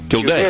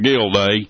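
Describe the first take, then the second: First: The name is said in a plain, neutral accent. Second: The name is said with a Texan hillbilly twang. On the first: The speaker calls it right. "Did I say it right?" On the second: The speaker calls it wrong. "That's the way a hillbilly would pronounce it"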